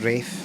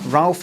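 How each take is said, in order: First: The name has a long vowel and no l. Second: The name has a short vowel and an l. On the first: This is the old, posh way. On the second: This is the everyday modern way.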